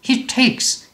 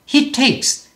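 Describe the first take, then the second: No difference in how they are said.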